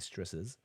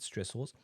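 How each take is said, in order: First: The final syllable is reduced, sounding like stresses. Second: The final syllable is clearly enunciated as -ors. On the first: "In Australia, we just say stresses" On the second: "I just need to enunciate that to make sure that's clear, uh, with an O R S at the end"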